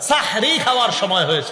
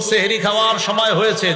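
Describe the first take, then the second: First: The first word begins with an 'a' vowel. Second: The first word begins with an 'e' vowel. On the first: It means it is time to eat the blessed meal. The speaker calls it right. "সাহরুন মানে পবিত্র খাদ্য" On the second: It means it is time to eat magic. The speaker calls it wrong. "না, এটা আর বলা যাবে না"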